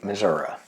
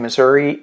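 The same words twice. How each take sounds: First: It is said the way country folks say it. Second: It is said the way city folks say it.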